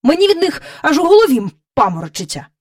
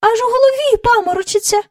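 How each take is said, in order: First: Quick, higher-pitched irritated grumble. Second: Quick, very high-pitched echo; echoing courtiers. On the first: King dizzy from the cow's capers, irritated. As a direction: complain testily, at speed. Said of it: "роздратовано додав він". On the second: Courtiers all echoing their king's complaint, high and quick. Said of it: "луною підхопили всі придворні". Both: A narrator's reading.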